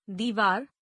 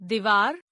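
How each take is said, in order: First: Said in the usual way. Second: दीवार with a short "i"; mispronounced. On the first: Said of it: "शुद्ध". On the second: Shown as a demonstration. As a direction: say दीवार as "divaar", first vowel short. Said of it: "अशुद्ध".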